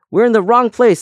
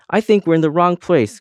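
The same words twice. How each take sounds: First: Much higher, louder indignant cry; insistent cry. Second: Higher, louder anxious cry. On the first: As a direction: insist at full pitch, offended. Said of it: "said the first earring". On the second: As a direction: cry out, lost and alarmed. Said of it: "cried the first earring". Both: A narrator's reading.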